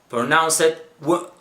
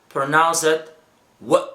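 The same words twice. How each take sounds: The two takes are said the same way.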